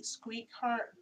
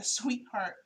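First: Says "squeak heart", the "sw" slipping into "skw", with a "t" where the "ee" should run on; tongue trips, "squeak heart" instead of the candy name; slip of the tongue. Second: "sweetheart" said cleanly as "sweet-heart" after the slip; corrected word. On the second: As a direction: fix the slip, saying "sweetheart" properly. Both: Real, not acted. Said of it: "I'm sorry, the sweetheart".

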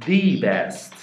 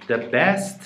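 First: THE said as a stressed "thee" before "best"; "THE best", as in the one and only; emphatic THE. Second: Said in the usual way. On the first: Shown as a demonstration. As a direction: hit THE hard in "the best", long ee. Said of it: "داره میگه اگه بهترینه".

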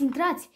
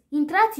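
First: Said in the usual way. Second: Bright rising call of Intrați, pitched up; fake cheerful call. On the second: Butler luring the cats inside, falsely cheerful. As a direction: call them in with false delight. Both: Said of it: "strigă el, prefăcându-se bucuros".

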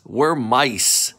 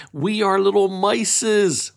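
First: Said in the usual way. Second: "mices" said as a cute wrong plural, high and sing-song; playful wrong plural. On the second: Shown as a demonstration. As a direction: say "little mices" like a child's mistake.

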